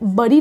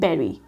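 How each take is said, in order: First: The first vowel is like 'bud'. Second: The first vowel is like 'bed'. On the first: The speaker calls it wrong. "ये बड़ी नहीं होता" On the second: The speaker calls it right. "इसको हम बोलते हैं बेरी"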